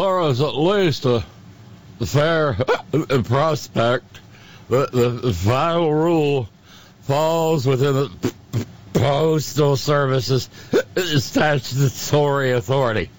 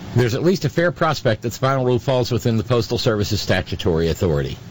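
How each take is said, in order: First: It is read in a silly drunken voice. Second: It is read in a normal voice.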